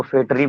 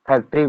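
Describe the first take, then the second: First: "फैक्ट्री" without the k, as fetri; village mispronunciation. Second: Said in the usual way. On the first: Shown as a demonstration. Teacher showing village speech, "फैक्ट्री" said as fetri. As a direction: drop the k in "फैक्ट्री". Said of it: "गांव में आप लोग देखे होंगे". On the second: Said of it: "अशिक्षा तो बिल्कुल है भाई".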